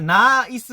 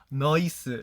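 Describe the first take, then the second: First: It is said with a plain standard vowel. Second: It is said with an Australian 'noice' vowel.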